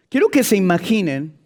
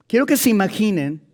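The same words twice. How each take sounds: The two takes are said the same way.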